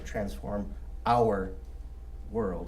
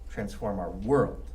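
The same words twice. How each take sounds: First: The emphasis falls on the word our. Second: The emphasis falls on the word world. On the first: It is about how we see and understand the world. "if you want to emphasize the word our" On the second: It is about changing the actual world's systems. "if you emphasize world"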